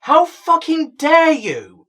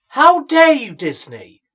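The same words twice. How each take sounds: First: Loud and drawn out, every word hammered; slower mock outrage. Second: Loud, higher indignant cry at Disney; mock outrage. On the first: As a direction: spit out "How fucking dare you" slowly, leaning hard on "How". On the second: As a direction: hurl it like a betrayed fan. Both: Outraged at Disney casting choice.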